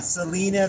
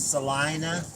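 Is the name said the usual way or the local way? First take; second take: usual; local. First: The name is said the usual way. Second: The name is said the local Kansas way. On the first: This is how outsiders would say it. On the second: This is how people there say it.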